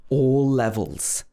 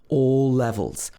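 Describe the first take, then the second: Both takes have the same delivery.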